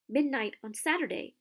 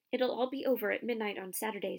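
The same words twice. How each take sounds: First: A hint of hoarse alarm, higher and louder; lightly hoarse, startled repeat. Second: Said in the usual way. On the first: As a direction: croak it out in sudden panic. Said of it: "he said in a hoarse voice". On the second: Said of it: "said Hermione".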